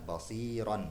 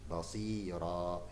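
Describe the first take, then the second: First: The word ends with a final n sound. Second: The word ends on a vowel with no n. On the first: This is the original full reading. "aslinya adalah basiron" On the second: This is how it is read when stopping at the end. "Basira begitu ya"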